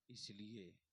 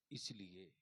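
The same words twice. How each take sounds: The two takes are said the same way.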